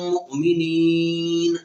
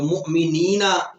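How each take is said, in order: First: The word ends on a bare n sound. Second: The word ends with an added a vowel. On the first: The speaker calls it right. "नून को साकिन कर दिया जाएगा" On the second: The speaker calls it wrong. "मुमिनीना नहीं पढ़ा जाएगा"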